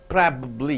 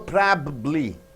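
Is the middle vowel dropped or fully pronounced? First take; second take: dropped; full. First: The middle vowel is dropped. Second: The middle vowel is fully pronounced. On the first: The speaker calls it right. "Yes, squeezed out" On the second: The speaker calls it wrong. "No probably"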